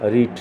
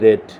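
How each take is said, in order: First: The vowel is long, as in 'reed'. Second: The vowel is short, as in 'red'. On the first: "রিট ঠিক আছে" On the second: "যখন এর sound হবে তখন কিন্তু রেড হবে"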